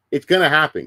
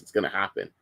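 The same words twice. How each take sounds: First: Louder, punchy "gonna happen"; loud prediction. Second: Softer, lower muttered "It's gonna happen"; quiet repeat. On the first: Streamer insists to chat the next fad is coming, loud. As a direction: call it out to chat. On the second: Streamer repeats his prediction to himself, soft. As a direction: say it again under your breath. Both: Real, not acted.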